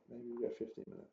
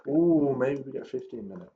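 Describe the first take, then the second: First: Much softer, half to yourself; quiet hopeful repeat. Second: Said in the usual way. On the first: Real, not acted. Trader repeats the wish to himself, much softer. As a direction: murmur it again under your breath, hoping. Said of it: "repeated softer". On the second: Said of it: "repeats it softer".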